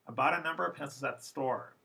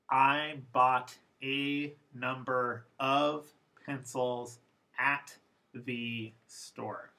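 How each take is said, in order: First: The unstressed vowels are reduced to schwa. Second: The unstressed vowels are said fully and clearly.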